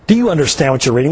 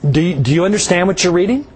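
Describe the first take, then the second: First: It is said in a scornful, mocking tone. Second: It is said in a gentle, caring tone.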